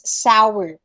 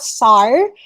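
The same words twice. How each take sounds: First: The word is said as two syllables. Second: The word is said as one syllable. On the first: The speaker calls it right. "Two syllables" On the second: The speaker calls it wrong. "It's not sour"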